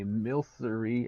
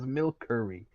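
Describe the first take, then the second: First: The middle consonant is an s sound. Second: The middle consonant is a k sound. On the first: The speaker calls it right. "you say milcery as milkery" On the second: The speaker calls it wrong. "you say milcery as milkery"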